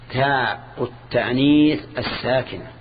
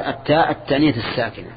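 First: "تاء التانيث الساكنة" drawn out slowly with breaks between words; deliberate, segmented dictation of "تاء التانيث الساكنة". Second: Said in the usual way. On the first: Shown as a demonstration. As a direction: spell out the term "تاء التانيث الساكنة" one word at a time. Repeats term word by word for analysis.

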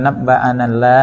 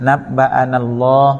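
First: "นับบะอานัลลา" ending in a light open "llah"; wrong thin Allah. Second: "นับบะอานัลลอฮ์" ending in a heavy, rounded "lloh"; thick Allah. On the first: Teacher showing what to avoid, thin lam. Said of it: "อย่าอ่านว่านับบะอานัลลา". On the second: Teacher modelling the reading to students, thick lam. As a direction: darken the l and vowel at the end of "นับบะอานัลลอฮ์". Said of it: "ให้เสียงหนา". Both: Shown as a demonstration.

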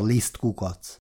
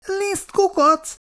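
First: Said in the usual way. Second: High, slow, outraged echo; mortally offended snort. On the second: A narrator's reading. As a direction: squeal it back, deeply insulted. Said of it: "horkant fel Péteri vérig sértve". (vérig sértve felhorkanva)

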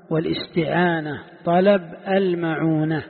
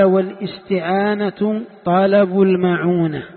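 First: Said in the usual way. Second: Louder and slow, reading the quoted text; formal text reading. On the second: Shown as a demonstration. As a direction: recite the author's words slowly and loudly. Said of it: "قال". (قراءة متن بصوت مرتفع وبطء)

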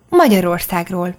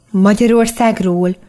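First: Said in the usual way. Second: Slow, wondering question; amazed. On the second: A narrator's reading. Daniel repeats the country's name, slow and amazed. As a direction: stretch it out in disbelief. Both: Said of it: "kérdezte ámulva Daniel".

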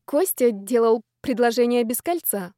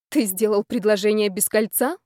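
First: Said in the usual way. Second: Disbelieving echo, rising on «кольца»; taken-aback question. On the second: A narrator's reading. Woman questions man about ringless proposal, taken aback. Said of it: "опешила Люся".

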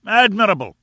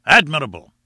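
First: Much higher, loud delighted cry; exclaiming higher. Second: Loud delighted cry; exclaiming. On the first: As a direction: soar up with delight. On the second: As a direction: call it out with delight. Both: A narrator's reading. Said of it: "cried Challenger".

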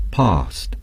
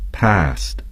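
First: "past" with a long broad ah vowel; British past. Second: "past" with a flat short a; American past. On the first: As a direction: say "past" like "pahst". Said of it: "The British would say". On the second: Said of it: "Americans would say". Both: Shown as a demonstration.

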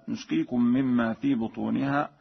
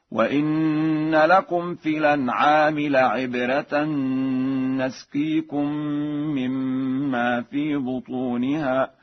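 First: Said in the usual way. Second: Slow, higher chant, "نسقيكم" as "nasqeekum"; Warsh recitation. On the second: Shown as a demonstration. Teacher showing Warsh's fatha in "نسقيكم", said "nasqeekum" in slow recitation. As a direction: open "نسقيكم" with fatha on the noon, "na". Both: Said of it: "بفتح النون هكذا".

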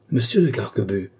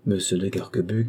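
First: A scandalized cry of his name, voice changed, sharp fall at the end; shocked exclamation. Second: Said in the usual way. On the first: A narrator's reading. Clémence cries out at her cousin, scandalized by his boast. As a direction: gasp his name, outraged. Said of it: "s'écria Clémence, qui paraissait suffoquée". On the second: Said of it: "narration naming him".

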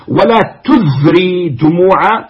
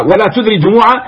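First: ولا تذري دموعا drawn out slowly, ولا stretched and rising; slow recited half-line; slow verse recital. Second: Said in the usual way. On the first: Shown as a demonstration. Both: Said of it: "تدري وتذري".

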